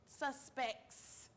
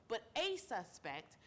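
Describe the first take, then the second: First: Said in the usual way. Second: The a in "a suspect" slowed and leaned on; stress on a. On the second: Shown as a demonstration. Correcting the plural, with a slow stress on "a". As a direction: draw out "a" in "but a suspect" to mean one, not several.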